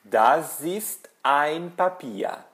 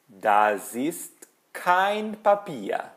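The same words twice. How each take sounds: First: Slow sentence with "ein" raised and drawn out; word-by-word example leaning on "ein"; stress on EIN. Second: Word-by-word example leaning on "kein"; stress on KEIN. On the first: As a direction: stretch "ein" to set up the contrast. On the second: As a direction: stretch "kein" to mark the negation. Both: Shown as a demonstration. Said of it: "Uma letra muda tudo".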